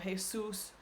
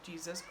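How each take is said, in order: First: The stress is on the last syllable. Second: The stress is on the first syllable. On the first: It is the Spanish name of a person. "the accent is on the last syllable" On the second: It names Jesus Christ in English. "in English, we say Jesus"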